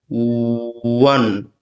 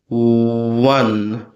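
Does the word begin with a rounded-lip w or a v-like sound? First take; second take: rounded w; rounded w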